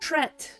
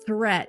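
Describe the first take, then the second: First: The word begins with a plain 't' sound. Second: The word begins with a 'th' sound. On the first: The speaker calls it wrong. "with a incorrect pronunciation" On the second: The speaker calls it right. "Good, I said it correctly"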